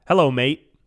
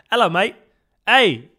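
First: British slang in an American accent. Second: Loud, high mock-British greeting; bad British accent. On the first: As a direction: say the British greeting with plain American vowels. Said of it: "but with an American accent". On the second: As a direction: do a hammed-up, badly faked British accent. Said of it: "British accent is so bad". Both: Shown as a demonstration.

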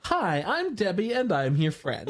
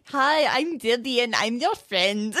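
First: Doll voice quote. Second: Lightly put-on bad German accent; terrible German accent. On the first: Retold or imitated. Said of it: "dolls that say". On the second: A hint of the fake German man's accent, quoting the doll line. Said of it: "He has such a terrible accent".

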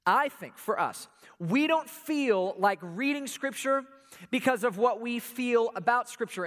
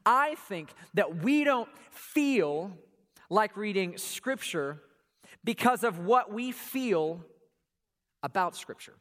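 First: Slow repeat. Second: Slow, weighty, every word laid down; slow emphasis. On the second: Pastor slows down to stress his point. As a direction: spell the point out slowly. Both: Shown as a demonstration. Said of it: "Let me say that again".

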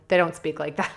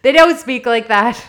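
First: Said in the usual way. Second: "don't" punched, the whole line louder and higher; emphatic repeat. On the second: Shown as a demonstration. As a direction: lean hard on "don't".

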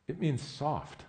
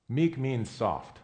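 First: Said in the usual way. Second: "Meek means soft" spoken slowly, each word weighted; slow emphatic definition. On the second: Shown as a demonstration.

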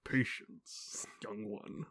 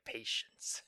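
First: Soft breathy dark mentor voice; calm gentle wise voice. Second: Hushed, slow, like a dark mentor; calm gentle wise voice. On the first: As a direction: hush it down, slow and wise. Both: Retold or imitated. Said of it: "Darth Vader's all like".

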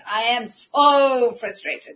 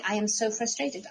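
First: Drawn out slowly, louder, laughing through it; mock-whine "I am so frustrated" with a laugh; hammed-up frustrated complaint; slow exasperated moan. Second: Said in the usual way. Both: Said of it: "I kept telling everybody".

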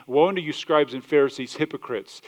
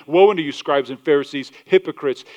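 First: Said in the usual way. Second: Louder, forceful woe; raised denouncing voice. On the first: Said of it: "speaking at such a high level of tone". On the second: Retold or imitated. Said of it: "speaking at such a high level of tone here".

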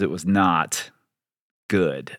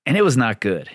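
First: Slow "not", pause, then a low falling "good"; stress with a pause. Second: Said in the usual way. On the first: Real, not acted.

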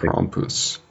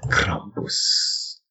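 First: Krampus breathed out in a hushed trailer whisper. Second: Krampus whispered with a rising trailer tone. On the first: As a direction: hiss Krampus like a movie trailer. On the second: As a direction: breathe Krampus like an ad voiceover. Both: Retold or imitated. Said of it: "can't stop myself from saying Krampus".

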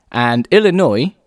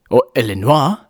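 First: Said in the usual way. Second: Illinois said ill-in-WAH, French style. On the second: Shown as a demonstration. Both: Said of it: "said it with a French accent".

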